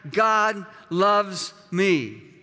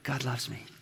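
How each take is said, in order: First: The words are said loudly and forcefully. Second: The words are whispered very softly. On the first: "would you declare that?" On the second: "just whisper it out loud"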